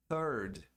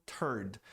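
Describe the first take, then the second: First: Teacher models the TH in "third"; correct English. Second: "third" with a hard T, like "turd"; teacher mimics the T-for-TH mistake; wrong TH as T. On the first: Teacher showing students how to say "third" properly. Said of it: "A pronúncia de terceiro em inglês é". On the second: Teacher warning students how a bad "third" sounds. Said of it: "vai soar como". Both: Shown as a demonstration.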